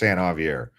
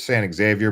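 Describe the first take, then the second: First: The name is said unlike its spelling. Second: The name is read the way it is spelled. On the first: The speaker calls it right. "but it's San Javier" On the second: The speaker calls it wrong. "It looks like it's San Xavier"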